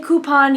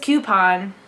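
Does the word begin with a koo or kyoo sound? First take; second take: koo; kyoo. First: The first syllable is koo, without a y sound. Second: The first syllable is kyoo, with a y sound. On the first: This is the speaker's own usual pronunciation. The speaker calls it right. "I say coupon" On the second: This is someone else's usual pronunciation. The speaker calls it wrong. "he says coupon. It's not coupon. ... It's not spelled with a Q U"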